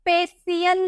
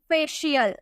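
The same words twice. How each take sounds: First: The middle consonant is not a 'sh' sound. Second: The middle consonant is a 'sh' sound. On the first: The speaker calls it wrong. "फेशियल नहीं" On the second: The speaker calls it right. "सी का उच्चारण शौ में किया जाता है"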